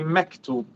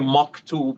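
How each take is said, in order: First: The first syllable sounds light and thin. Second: The first syllable sounds heavy and full. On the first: The speaker calls it right. "you say mektub" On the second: The speaker calls it wrong. "you don't say maktub"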